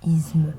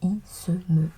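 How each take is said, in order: First: The consonant is a voiced Z sound. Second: The consonant is a voiceless S sound. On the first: The speaker calls it wrong. "et non isme" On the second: The speaker calls it right. "La seule prononciation correcte est isme"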